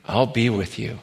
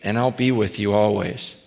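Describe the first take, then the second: First: Soft echo. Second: Tender promise. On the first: Echoing the promise softly. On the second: Quoting Jesus' closing promise. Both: Acted.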